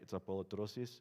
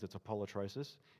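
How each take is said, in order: First: It is said with a Greek accent. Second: It is said with an Australian accent.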